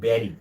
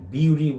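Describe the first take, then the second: First: The first vowel sounds like 'e'. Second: The first vowel sounds like 'yoo'. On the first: The speaker calls it right. "but the pronunciation will be berry" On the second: The speaker calls it wrong. "বিউরি বলি"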